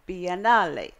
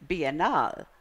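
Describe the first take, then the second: First: The word is pronounced the Italian way. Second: The word is pronounced the Spanish way. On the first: "then I learned the Italian, which you must say it correctly if you're going to Italy" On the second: "the Spanish"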